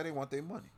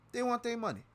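First: Said in the usual way. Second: Much higher, hitting want hard; emphatic outburst. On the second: Real, not acted. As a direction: fling the repeat out in exasperation. Repeats line, much higher.

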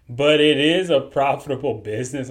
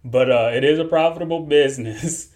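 First: Straight face, the laugh almost breaking through; holding back a laugh. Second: The laugh slipping into the words; barely keeping it together, then cracking; trying not to laugh. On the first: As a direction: say it fighting off the giggles. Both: Real, not acted. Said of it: "I'm trying my best not to laugh".

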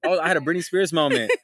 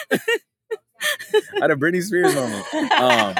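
First: Said in the usual way. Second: Laughing through the words. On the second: Real, not acted. Real laughter breaking into the line. Repeating the joke while laughing.

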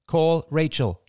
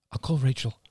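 First: High, deliberate command to a phone; higher, carefully separated words. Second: Said in the usual way. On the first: A narrator's reading. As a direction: enunciate it for voice recognition.

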